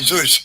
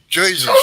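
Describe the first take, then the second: First: The name begins with a breathy H sound. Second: The name begins with an English J sound. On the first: The speaker calls it right. "It was Jesus" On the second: The speaker calls it wrong. "And it wasn't"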